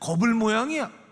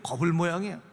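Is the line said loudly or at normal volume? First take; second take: loud; normal. First: The line is said in a louder voice. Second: The line is said at a normal volume.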